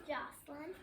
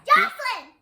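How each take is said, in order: First: It is said quietly. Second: It is said loudly.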